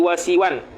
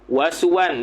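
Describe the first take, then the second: First: The vowel after the s is i. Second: The vowel after the s is u. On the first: "siwan tu bi kasris sin" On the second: "bi dhammis sin"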